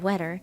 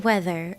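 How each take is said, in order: First: The middle sound is a plain 't'. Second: The middle sound is a soft 'th'. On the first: The speaker calls it wrong. "I don't say weather" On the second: The speaker calls it right. "I say weather with a T H"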